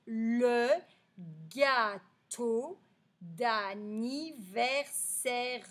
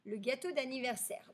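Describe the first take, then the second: First: Very slow, split into separate syllables; slow syllable reading. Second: Said in the usual way. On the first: Shown as a demonstration. Teacher reading the story's title to pupils, slow syllables. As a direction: sound out the title piece by piece. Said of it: "le titre de cette histoire, ça va être". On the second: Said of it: "le titre de cette histoire".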